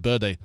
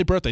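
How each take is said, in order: First: "birthday" with a dull, r-less first syllable; accented "birthday". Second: Said in the usual way. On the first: Shown as a demonstration. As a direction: say "birthday" as "buhday". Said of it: "He said birthday". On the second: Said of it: "He didn't say birthday".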